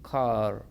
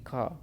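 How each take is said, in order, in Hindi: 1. यह एक तेज़ r ध्वनि के साथ खत्म होता है। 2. यह बिना r की ध्वनि के खत्म होता है। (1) "अब अमेरिकन पढ़ेंगे तो आर कैसे होगा" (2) "आर की साउंड नहीं आएगी"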